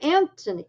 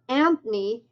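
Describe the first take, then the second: First: The th sound and every vowel are pronounced. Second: The th sound and a vowel are dropped. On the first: The speaker calls it right. "instead of Anthony" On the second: The speaker calls it wrong. "my name's Anthony"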